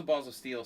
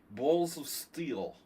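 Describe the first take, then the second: First: Said in the usual way. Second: Slow, drawn-out Russian accent, marbles in the mouth. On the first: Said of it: "you have to talk like". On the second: Shown as a demonstration. Streamer showing chat how to tell the Balls of Steel story, marble-mouthed Russian accent. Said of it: "talk like you have marbles in your mouth".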